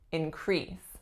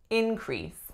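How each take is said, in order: First: The stress is on the second syllable. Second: The stress is on the first syllable. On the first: It is used as a verb. "As a verb, we would say increase" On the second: It is used as a noun. "as a noun, the winner is the first"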